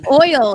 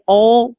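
First: OIL drawn out with its full 'oy' glide; own way of oil. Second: OIL flattened to 'ole', no 'oy' glide; imitated pronunciation of oil. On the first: Shown as a demonstration. Guest shows the host her own way, drawn-out oil. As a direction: say OIL slowly, oy-ul. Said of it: "is how I would oil". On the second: Guest imitating how the host says it, flattened oil. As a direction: mimic OIL as a drawn 'ole'. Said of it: "But you say, you say oil".

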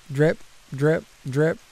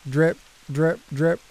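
Both takes have the same delivery.

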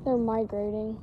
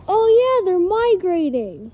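First: Said in the usual way. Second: Louder and higher, drawn-out migrating; suddenly sure of it, lean on migrating; emphatic realization. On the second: Real, not acted. Repeats answer louder, with emphasis.

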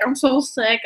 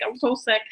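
First: Said in the usual way. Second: Weak mock sick moan. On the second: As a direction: drop softer, a fading mock whine. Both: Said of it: "but I was like".

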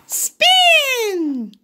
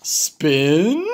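First: High little pig call; Piggy calling the spin to Gerald, high voice. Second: Gerald voice. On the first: Piggy calls the move. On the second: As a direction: lower big elephant voice. Gerald echoes. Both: Acted.

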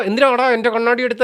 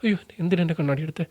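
First: Higher, sharp demanding question; mock-angry challenge. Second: Softer, frightened wail starting with അയ്യോ; mock-fearful plea; scared. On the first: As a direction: imitate him snapping over his glasses. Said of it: "എന്ന് പറഞ്ഞ് ദേഷ്യപ്പെടാം". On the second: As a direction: imitate a man alarmed, not angry. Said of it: "ഭയം ഉണ്ടാവാം".

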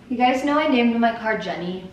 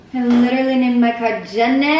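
First: Said in the usual way. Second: Louder, leaning on "literally" and "Jenny"; emphatic insistence. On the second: Real, not acted. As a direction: insist it is really true.

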